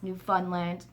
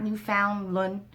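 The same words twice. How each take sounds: First: The word is said quickly, run together. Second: The word is said slowly, syllable by syllable. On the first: The speaker calls it right. "Say it real fast" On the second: The speaker calls it wrong. "not Newfoundland"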